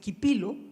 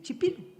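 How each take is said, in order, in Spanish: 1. La palabra empieza con un sonido k fuerte. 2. La palabra empieza con sonido ch. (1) "la C H en español no se dice Quipilo" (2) "sino que se dice Chipilo"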